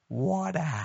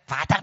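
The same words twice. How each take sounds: First: It is said in an American accent. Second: It is said flat, in a Cape Town accent.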